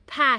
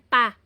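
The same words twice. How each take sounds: First: The p is said with a puff of air. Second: The p is said without a puff of air. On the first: The speaker calls it right. "ito ay aspirated ha, kaya ang bigkas po niya ah, mahangin po" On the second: The speaker calls it wrong. "hindi yan pa"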